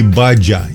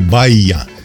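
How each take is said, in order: First: The middle consonant is a dzh sound. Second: The middle consonant is a y-like glide. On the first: "а не «баджа»" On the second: "или «баия»"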